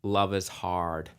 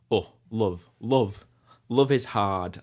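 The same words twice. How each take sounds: First: Slow North American "Love is hard" with a clear R in "hard"; Canadian-style "hard", R sounded; North American accent. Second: Sing-speak "love" with a broad Burnley U; Burnley "Oh, love, love, love is hard", U shifted toward Burnley; Burnley accent. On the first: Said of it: "as opposed to". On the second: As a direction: croon it the Burnley way, love stretched. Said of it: "the Burnley U is a bit, um, it's a bit more". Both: Shown as a demonstration.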